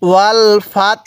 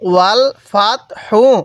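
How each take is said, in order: First: The word ends on a light 'h' without vowel. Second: The word ends with a full 'hu' syllable. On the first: The reader stops at this word. "এই হাটা হালকা উচ্চারণ করব, তাটা পরিপূর্ণ উচ্চারণ করব এবং হায়ের উপরে এই যে পেশটি আছে এই পেশটিকে আমরা বাদ দিয়ে দিব।" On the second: The reading continues without stopping. "হা পেশ হু"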